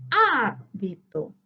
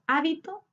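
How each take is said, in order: First: Hábito slowly, HÁ long, then a gap; tonic syllable stressed. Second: Said in the usual way. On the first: Shown as a demonstration. Teacher marking the tonic syllable for students, HÁ drawn out in Hábito. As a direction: hold HÁ in Hábito before the rest. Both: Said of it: "identificar la sílaba tónica".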